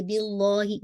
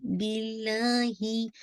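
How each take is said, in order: First: बिल्लाही with a heavy dark lah; wrong take. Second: बिल्लाही chanted with a light thin ल and clear ही; light lam. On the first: Teacher plays the mistake for her students, heavy lam. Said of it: "नहीं, बिल्लाही". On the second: Teacher corrects the heavy lam, slow light recitation. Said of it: "light रखिएगा". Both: Shown as a demonstration.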